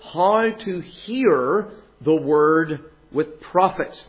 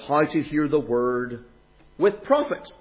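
First: The word hear carries the main stress. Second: The word profit carries the main stress. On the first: The focus is on the act of listening. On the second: The focus is on the benefit of listening.

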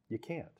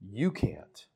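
First: The stress is on "can't". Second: The stress is on "you".

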